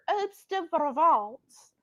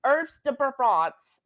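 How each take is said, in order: First: "Herbs de Provence" drawn out in a tentative French accent; attempted French accent. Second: Said in the usual way. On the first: Shown as a demonstration. Home cook practising her French accent on the seasoning's name, attempted French accent. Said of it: "I need to get my French accent better". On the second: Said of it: "I don't even think I can say that right".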